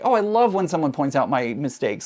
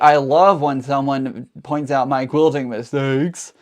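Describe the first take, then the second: First: It sounds sincere and appreciative. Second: It sounds sarcastic and annoyed.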